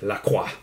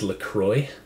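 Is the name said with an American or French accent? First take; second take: French; American. First: The name is said with a French pronunciation. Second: The name is said with an American pronunciation.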